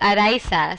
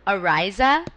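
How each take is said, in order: First: The name is said with Spanish pronunciation. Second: The name is said with English pronunciation. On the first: "in Spanish, it's Araiza" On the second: "the closest thing in English is Araiza"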